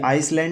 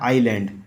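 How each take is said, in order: First: An s sound is pronounced in the middle. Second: No s sound is pronounced in the middle. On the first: The speaker calls it wrong. "ये आइसलैंड नहीं होता" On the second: The speaker calls it right. "आइलैंड इसमें एस एस इसमें silent रहता है"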